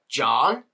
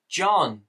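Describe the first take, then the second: First: JOHN with a rising, questioning tune; mock-confused JOHN, lifted at the end; puzzled question. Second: JOHN higher, with a falling tune; exasperated, falling JOHN; incredulous echo. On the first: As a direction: ask JOHN as if you misheard the name. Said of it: "and they were like". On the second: Retold or imitated. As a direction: throw JOHN back as a statement of disbelief. Repeats the absurd mishearing.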